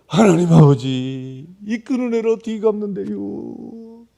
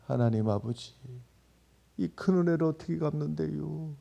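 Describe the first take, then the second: First: Slow, loud Chungcheong dialect plea; loud Chungcheong prayer. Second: Moving prayer. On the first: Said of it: "충청도 말로다가". (크고 느린 충청도 사투리 기도) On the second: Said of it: "그렇게 은혜스럽게 느껴졌던". (은혜스럽고 잔잔한 충청도 사투리 기도) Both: Retold or imitated.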